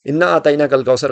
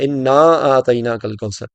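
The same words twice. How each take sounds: First: The vowel after inna is said short. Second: The vowel after inna is drawn out long. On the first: The speaker calls it wrong. "गलत है" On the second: The speaker calls it right. "क्योंकि इन्ना के साथ नून अलिफ ना भी है"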